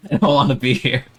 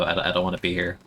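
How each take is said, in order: First: Louder, laughing through the complaint, higher; laughing whine. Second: Said in the usual way. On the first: Real, not acted. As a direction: giggle it out as a mock protest.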